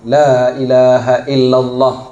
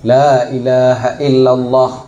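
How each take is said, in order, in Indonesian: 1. Vokal dalam Allah dibaca pendek. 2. Vokal dalam Allah dibaca pendek.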